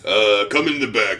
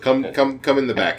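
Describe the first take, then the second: First: The voice is deeper and rougher, gruff. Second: The voice is fairly ordinary, not very rough. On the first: The speaker calls it right. "Should I sound gruffer?" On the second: The speaker calls it wrong. "it doesn't sound very gruff"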